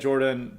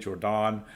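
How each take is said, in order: First: The name is pronounced the English way. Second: The name is pronounced the French way. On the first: "I'm not using the French pronunciation" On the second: "probably Jordan"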